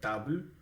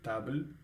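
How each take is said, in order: No difference in how they are said.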